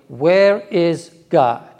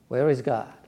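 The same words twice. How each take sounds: First: It is asked in a stern voice. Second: It is asked in a mild, calm voice.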